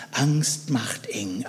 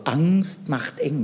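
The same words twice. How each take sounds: First: Angst macht eng whispered slowly, breathy and hushed. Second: Angst macht eng spoken slowly, every word weighted; slow emphatic. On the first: Preacher whispers to the congregation how fear tightens. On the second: Preacher tells the congregation slowly how fear tightens. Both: Shown as a demonstration. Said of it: "Merkt ihr was?".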